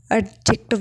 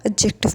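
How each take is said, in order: First: "एडजेक्टिव" with the D sounded; "एडजेक्टिव" mispronounced as ad-jective, D voiced; wrong pronunciation. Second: "एडजेक्टिव" with the D silent; "एडजेक्टिव" with d dropped before the j. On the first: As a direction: say "एडजेक्टिव" with an audible d before the j. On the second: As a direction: say "एडजेक्टिव" as a-jective, no separate d. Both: Shown as a demonstration. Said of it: "डी silent होता है".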